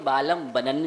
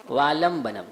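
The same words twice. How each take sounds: First: वालंबनन ending on n instead of m; wrong ending. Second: वालंबनम closed on m; correct ending. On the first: Retold or imitated. Teacher quoting how many people say it, wrong ending. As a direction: let वालंबनन finish on an n. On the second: Shown as a demonstration. Teacher setting right against common mistake, correct ending. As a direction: end वालंबनम with lips shut on m. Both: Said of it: "कई लोग वालंबनन भी बोल देते हैं".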